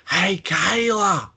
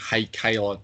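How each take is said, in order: First: High, drawn-out, slow squeal of Hey, Kayla with the pitch far up; Iconics-style scream. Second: Said in the usual way. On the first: Retold or imitated. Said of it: "my best Iconic and go". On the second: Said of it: "pull off the screaming".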